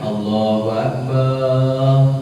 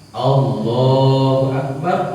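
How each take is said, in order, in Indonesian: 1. Vokal setelah b dibaca panjang. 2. Vokal setelah b itu pendek.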